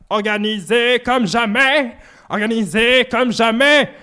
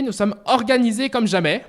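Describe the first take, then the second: First: Slow, stretched put-on voice; mock grandiose voice. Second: Said in the usual way. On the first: Streamer repeating his own boast in a slow put-on voice. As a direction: savor it like a pompous slogan.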